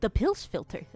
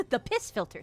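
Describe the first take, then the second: First: "pills" said with an L instead of "piss"; mispronounced. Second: "piss" said cleanly with a hissed S, no L; corrected word. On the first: Real, not acted. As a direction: says "pills filter", slipping an L into "piss". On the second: Shown as a demonstration. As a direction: fix it to "piss filter", crisp S. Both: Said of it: "I mispronounced the word piss".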